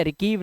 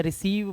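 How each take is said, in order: First: रिकीव said with a hard k; रिकीव, गलत क वाला उच्चारण; wrong k sound. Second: रिसीव said with a soft s; रिसीव, सही स वाला उच्चारण; correct s sound. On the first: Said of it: "रिकीव नहीं पढ़ेंगे". (गलत उच्चारण: रिकीव, क के साथ) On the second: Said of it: "इसे रिसीव पढ़ेंगे". (सही उच्चारण: रिसीव, स के साथ) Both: Shown as a demonstration.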